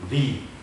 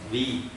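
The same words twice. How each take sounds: First: Breath audibly escapes with the syllable. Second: The breath is held back with firm pressure. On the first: The speaker calls it wrong. "ada nafas yang keluar" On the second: The speaker calls it right. "Sebenarnya di makhraj seharusnya"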